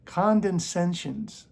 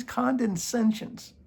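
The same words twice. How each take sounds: First: "Condescensions" read out slowly, falling at the end; slow spelled-out word. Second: "Condescensions" higher, slow, rising as if to ask "can you?"; challenging rise. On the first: Reading the word to viewers, slowly, with a falling tone. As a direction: lay out each syllable of "Condescensions". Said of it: "Four syllables". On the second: Challenging viewers to spell it, higher, with a rising tone. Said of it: "can you spell it first?". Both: Shown as a demonstration.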